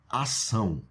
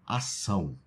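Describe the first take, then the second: The two takes are said the same way.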